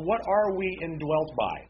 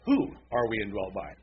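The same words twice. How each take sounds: First: Said in the usual way. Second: "Who" stressed, set apart from the rest. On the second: Real, not acted. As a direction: correct yourself by leaning on "Who". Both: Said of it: "Or I should say it this way".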